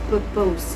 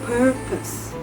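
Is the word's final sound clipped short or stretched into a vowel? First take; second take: stretched; clipped. First: The final sound is stretched into an extra vowel. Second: The final sound is soft and clipped short. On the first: The speaker calls it wrong. "often mispronounced as purpose" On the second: The speaker calls it right. "The correct pronunciation is purpose"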